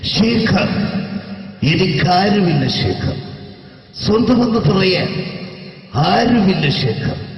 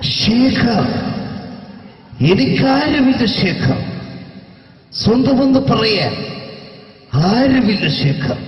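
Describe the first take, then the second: First: The imitated voice is toned down and restrained. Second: The imitated voice is heavily exaggerated. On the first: The speaker calls it right. "ശരിക്കും സിനിമയിൽ ഉപയോഗിച്ച ശൈലി ഇത്ര അത്ര ഇല്ല, ഇങ്ങനെയാണ്" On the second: The speaker calls it wrong. "ഈ type അല്ല ഉമ്മർക്ക"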